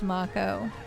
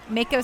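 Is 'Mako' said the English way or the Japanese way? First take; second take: Japanese; English. First: The name is said with the Japanese pronunciation. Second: The name is said with an English pronunciation. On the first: "the Japanese pronunciation" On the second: "Mako sounds better"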